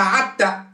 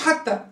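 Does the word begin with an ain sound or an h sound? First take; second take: ain sound; h sound. First: The word begins with a throaty ain sound. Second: The word begins with a breathy h sound. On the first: "تبدل الحاء بعاء" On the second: "ما تقولهاش حتى"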